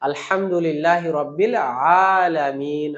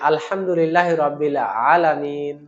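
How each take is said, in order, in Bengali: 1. 'alamin'-এর প্রথম স্বরধ্বনিটি লম্বা করে টানা হয়। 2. 'alamin'-এর প্রথম স্বরধ্বনিটি দ্রুত ও ছোট করে বলা হয়। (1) "আতে একটা মাদ আছে" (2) "আমি দ্রুত বলে চলে গেলাম"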